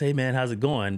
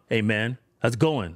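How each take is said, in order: First: The greeting sounds relaxed and friendly. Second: The greeting sounds hostile and confrontational. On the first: There is no wish to fight. The speaker calls it right. "I'm just talking to him like this" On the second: The speaker wants to fight. The speaker calls it wrong. "That can mean I want to fight"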